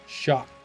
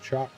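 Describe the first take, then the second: First: The word begins with a sh sound. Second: The word begins with a ch sound. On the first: "You could make it an S H sound" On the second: "it looks like chalk"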